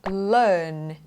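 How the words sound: The R sound is dropped. The speaker calls it right. "ไม่มีเสียง R ข้างหลัง"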